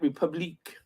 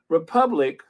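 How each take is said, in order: First: The word is said with a French pronunciation. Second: The word is said with an English pronunciation. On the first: The speaker calls it wrong. "not Republique. That's French" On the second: The speaker calls it right.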